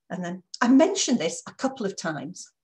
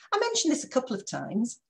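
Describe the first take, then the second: First: Said in the usual way. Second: A reproachful reminder; pointed reminder. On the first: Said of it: "repeated sentence". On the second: Shown as a demonstration. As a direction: stress on I, edgy and rising. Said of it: "put so much aggression".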